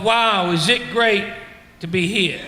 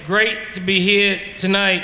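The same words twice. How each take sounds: First: Slow sarcastic "Wow, is it great to be here?"; mock wonder. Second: "Great to be here tonight" drawn out slowly and flatly, savoring each word; slow mocking repeat. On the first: Asking the crowd if they ever felt this, slowly and sarcastic. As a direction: drag it out, mocking the thought. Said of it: "you thought to yourself". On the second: Shown as a demonstration. Echoing the comedians' line back to the crowd, slowly. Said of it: "Think about that statement".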